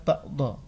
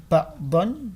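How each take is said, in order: First: The word ends on a long vowel. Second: The word ends with an n sound. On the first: The reading stops at this word. "dibaca ba'do karena dihentikan di sini" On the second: This is the full written form of the word. "di sini ba'don"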